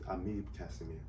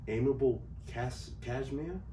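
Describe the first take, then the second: First: The name is said with Creole pronunciation. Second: The name is said like English words. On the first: "the Creole pronunciation is" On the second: "some people was like"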